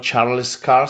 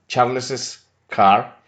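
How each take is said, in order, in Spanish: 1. El nombre se dice sin una sílaba extra. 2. El nombre termina con una sílaba extra. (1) "no decimos Charles Carr" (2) "sino Charles's"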